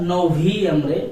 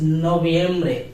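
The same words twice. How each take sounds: First: The v is said as an English v sound. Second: The v is said as a b sound. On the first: The speaker calls it wrong. "not Noviembre" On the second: The speaker calls it right. "it will be pronounced like Ba"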